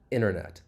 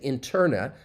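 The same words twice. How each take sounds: First: The T after the N is dropped. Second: The T after the N is clearly pronounced. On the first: The speaker calls it right. "That T elides" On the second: The speaker calls it wrong. "I'm not going to say internet"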